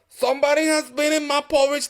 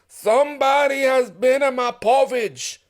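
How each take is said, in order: First: The voice is middle-pitched and moderate. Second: The voice is deep, rough and gruff. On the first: The middle-sized bear is speaking. "in her middle voice" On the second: The biggest bear is speaking. "in his great rough gruff voice"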